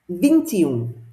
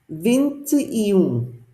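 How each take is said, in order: First: It is said quickly, run together. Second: It is said at a normal pace.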